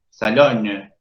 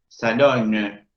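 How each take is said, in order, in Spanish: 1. La N final se pronuncia después de una O oral. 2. La N final se pronuncia después de una O oral.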